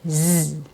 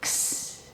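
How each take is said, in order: First: It is said as a 'z' sound. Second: It is said as a 'ks' sound. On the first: "It can also be pronounced with a Z sound" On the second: "It can be pronounced with a K S"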